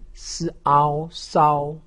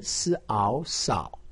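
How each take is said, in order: First: The pitch stays high and level. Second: The pitch dips low then rises. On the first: "一声" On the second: "三声"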